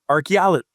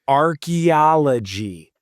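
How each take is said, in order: First: The word is said quickly in one go. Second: The word is said slowly and carefully. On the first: The speaker calls it right. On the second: The speaker calls it wrong.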